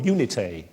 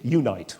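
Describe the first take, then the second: First: The name is said with a Latin-style pronunciation. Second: The name is said with an English-style pronunciation.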